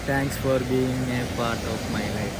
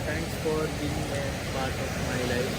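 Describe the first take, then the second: First: The sentence is said loudly. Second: The sentence is said quietly. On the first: The speaker calls it right. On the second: The speaker calls it wrong.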